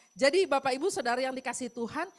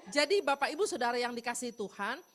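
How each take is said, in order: The two takes are said the same way.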